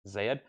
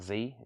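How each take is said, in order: First: The letter is said as 'zed'. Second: The letter is said as 'zee'. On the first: The speaker calls it right. "it's Z" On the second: The speaker calls it wrong. "It's actually not Z"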